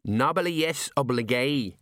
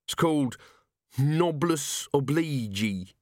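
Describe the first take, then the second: First: Noblesse oblige, said the French way, slowly; correct pronunciation. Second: Noblesse oblige said wrongly, "nobless obleege"; wrong pronunciation. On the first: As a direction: set him right with "Noblesse oblige". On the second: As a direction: mangle "noblesse oblige" slowly, like a man showing off. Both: A narrator's reading. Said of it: "corrected Colon".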